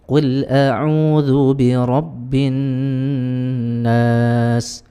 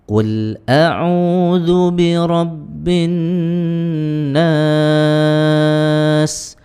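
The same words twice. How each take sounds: First: The final vowel is held for two counts. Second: The final vowel is held for four counts. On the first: "itu dua" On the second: "ini empat harokat"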